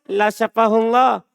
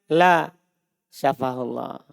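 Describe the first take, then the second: First: It is said flat, without a break. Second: There is a break after "La".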